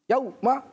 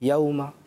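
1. لین آواز سخت اور اچانک انداز میں کہی جاتی ہے۔ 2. لین آواز نرمی اور ہموار انداز میں کہی جاتی ہے۔ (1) "یہ غلط" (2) "نرمی ایسے"

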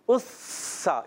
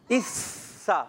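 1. یہ حرف سیٹی جیسی آواز والا s ہے۔ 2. یہ حرف سیٹی جیسی آواز والا s ہے۔

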